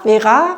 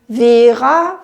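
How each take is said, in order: First: The stress is on the last syllable. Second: The stress is on the first syllable. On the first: It matches the uneven French articulation. "und das andere" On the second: It matches the usual even articulation. "das Normale ist dann so ein bisschen wie Vera"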